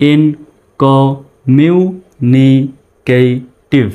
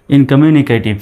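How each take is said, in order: First: "ইনকমিউনিকেটিভ" drawn out very slowly in separate syllables. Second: Said in the usual way. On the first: Shown as a demonstration. Teacher showing learners how a long word splits, syllable by syllable. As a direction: say each syllable of "ইনকমিউনিকেটিভ" alone, with gaps. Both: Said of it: "ভেঙে ভেঙে উচ্চারণ করার".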